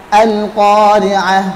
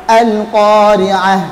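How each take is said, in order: Both takes have the same delivery.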